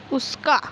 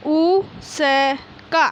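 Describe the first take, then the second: First: Said in the usual way. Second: Drawn out syllable by syllable. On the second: Shown as a demonstration. Teacher sounding out उसका slowly for class one pupils. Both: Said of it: "बोल बोल कर पढ़िए".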